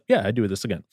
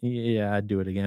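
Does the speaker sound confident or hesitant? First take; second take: confident; hesitant. First: It is said in a confident way. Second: It is said in a hesitant way.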